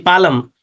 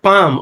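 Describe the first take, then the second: First: The l is pronounced with an extra vowel. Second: The l is silent. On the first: The speaker calls it wrong. "we say palam" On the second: The speaker calls it right. "in place of"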